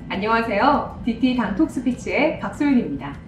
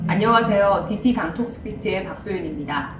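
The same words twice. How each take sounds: First: The pitch rises and falls with lively movement. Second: The pitch stays flat and monotone throughout. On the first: The speaker calls it right. "흐름이 있는 버전" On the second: The speaker calls it wrong. "밋밋한 버전"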